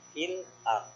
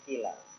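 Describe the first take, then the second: First: A glottal stop separates 'fil' and 'ard'. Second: The words run together with no glottal stop. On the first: This is the reading that keeps the original sound. "Fil ard namanya taktik" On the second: This is the reading that carries the vowel over. "bacanya filar"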